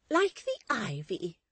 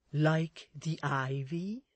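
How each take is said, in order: First: High, loud, slow matron voice; emphatic assent. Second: Slow, rising, questioning character voice; tentative suggestion. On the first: Mrs Chick accepts Miss Tox's simile, emphatic assent. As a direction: seize on the word, pitched right up. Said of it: "Missus Chick assented". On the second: Miss Tox supplies the missing simile, tentative suggestion. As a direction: offer it slowly as a prompt. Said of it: "suggested Miss Tox". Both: Acted.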